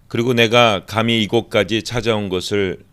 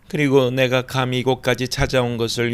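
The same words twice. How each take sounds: First: It is read in the speaker's ordinary voice. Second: It is read in an imitated woman's voice.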